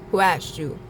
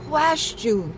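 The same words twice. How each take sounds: First: Said in the usual way. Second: High, sharp who asked you; sassy retort. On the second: Pretend. Scolding a meddler who touched the altar, sassy. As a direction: snap back at a meddler.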